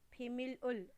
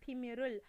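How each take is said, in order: First: The final l is cut off before the next syllable. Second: The final l runs into the next syllable. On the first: The speaker calls it wrong. "you should not pronounce it as 비밀을. That's wrong" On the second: The speaker calls it right. "then you should combine it"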